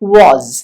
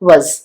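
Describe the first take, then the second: First: The word has a full, clear vowel. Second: The word has a short, reduced vowel. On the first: "strong form എന്ന് പറയുന്നത് വാസ് ആണ്" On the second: "വീക്ക് form വസ് മാത്രമാണ്"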